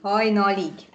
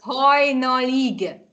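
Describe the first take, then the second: First: Said in the usual way. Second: "Hajnalig" stretched out slowly; teacher's drawn-out "Hajnalig"; slow model word. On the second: Shown as a demonstration. Teacher answers how word is said.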